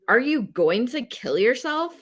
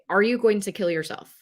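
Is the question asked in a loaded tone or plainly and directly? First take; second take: loaded; direct. First: The question sounds emotionally loaded in another way. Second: The question is asked plainly and directly. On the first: The asker's own bias or discomfort shows. The speaker calls it wrong. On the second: The question is asked without bias or discomfort. The speaker calls it right. "Ask it direct"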